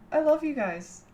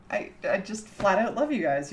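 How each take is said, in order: First: Much higher laugh into a fond declaration; giggle, then tell them you love them; high giggle then gush. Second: Said in the usual way. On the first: Real, not acted. Streamer giggling as she tells chat she loves them.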